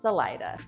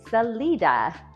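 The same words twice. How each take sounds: First: The middle vowel sounds like 'eye'. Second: The middle vowel sounds like 'ee'. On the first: This is how locals say the town's name. The speaker calls it right. "around here it's pronounced Salida. Hard I, accent on the middle syllable" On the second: This is the Spanish-style pronunciation. The speaker calls it wrong. "your brain's probably saying to you"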